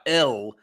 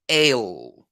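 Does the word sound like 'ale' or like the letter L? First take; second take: letter L; ale. First: It sounds like the name of letter L. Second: It sounds like the English word ale. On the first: The speaker calls it wrong. "Not L" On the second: The speaker calls it right.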